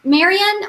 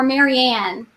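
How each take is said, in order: First: Marianne with a weak, unstressed "-un" ending; reduced last syllable. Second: Marianne with a clear, open "Ann" at the end; full "Ann" ending. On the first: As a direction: say Marianne as one name, ending in a quick schwa. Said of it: "Is it Marianne or Marianne?". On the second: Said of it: "It's Marianne". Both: Shown as a demonstration.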